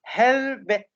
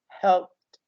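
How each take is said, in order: First: It has an extra vowel before a final t. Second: The p and t join in one syllable. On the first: The speaker calls it wrong. "We don't say helbet. No, this is not correct" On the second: The speaker calls it right. "The peh and teh are connected together"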